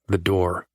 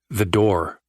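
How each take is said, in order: First: It is murmured softly. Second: It is said firmly.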